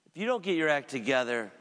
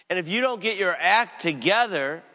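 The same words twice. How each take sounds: First: Said in the usual way. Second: Loud, rising warning on "don't". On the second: Acted. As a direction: thunder the warning, hit "don't". Jesus voiced rebuking his disciple.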